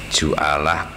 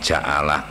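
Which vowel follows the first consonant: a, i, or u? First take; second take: u; a. First: The first consonant is followed by an u vowel. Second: The first consonant is followed by an a vowel. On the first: "dibaca tiga wajah huruf jimnya" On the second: "dibaca tiga wajah huruf jimnya"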